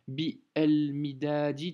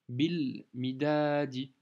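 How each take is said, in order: First: The article is said as a separate syllable. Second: The article is joined to the first syllable. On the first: The speaker calls it wrong. "Si tu t'amuses à faire bi el midadi, tu vas pas t'en sortir" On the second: The speaker calls it right. "Donc tu vas faire tout de suite bil. C'est logique en fait"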